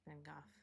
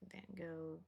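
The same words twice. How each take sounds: First: The name is said a more native-sounding way. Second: The name is said the common everyday way.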